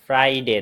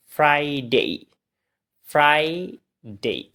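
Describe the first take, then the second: First: "ফ্রাইডে" quick, as phrai-de; common mispronunciation. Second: "ফ্রাইডে" drawn out as frai-dei; corrected pronunciation. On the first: Teacher repeats the wrong "ফ্রাইডে", quick phrai-de. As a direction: clip the ending of "ফ্রাইডে" to de. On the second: Teacher models "ফ্রাইডে" for learners, long frai-dei. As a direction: stretch frai in "ফ্রাইডে", then a gliding dei. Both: Shown as a demonstration. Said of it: "ফ্রাইডে না".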